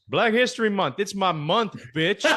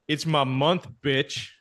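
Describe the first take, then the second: First: Higher-pitched mock boast; emphatic trash talk. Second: Matter-of-fact retold taunt; unfazed trash talk. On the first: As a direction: punch out the taunt as a punchline. Retold punchline of trash talk. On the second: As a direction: toss off the taunt without breaking stride. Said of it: "without breaking stride. He goes".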